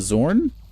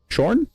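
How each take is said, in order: First: The name begins with a z sound. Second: The name begins with an sh sound. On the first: "It's a Z in that per... So Zorn?" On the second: "is it Sh?"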